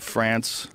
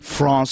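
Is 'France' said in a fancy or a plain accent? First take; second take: plain; fancy. First: It is said with an ordinary everyday vowel. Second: It is said with a fancy, cultured-sounding vowel. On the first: "I didn't say France" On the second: "Notice how I said France because I'm very cultured"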